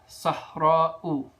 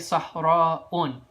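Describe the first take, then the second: First: The word ends in a plain u vowel. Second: The word ends in u followed by n. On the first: The speaker calls it right. "you would say Sahra'u" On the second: The speaker calls it wrong. "You would never say Sahra'un because it doesn't accept tanween"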